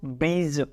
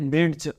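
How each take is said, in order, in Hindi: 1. यह शब्द बिना d की ध्वनि के बोला जाता है। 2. यह शब्द एक साफ़ d की ध्वनि के साथ बोला जाता है। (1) "तो डी को नहीं पढ़ना है, तो हम क्या पढ़ते हैं इसको" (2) "हम ऐसा नहीं पढ़ते ब्रिड्ज, नो"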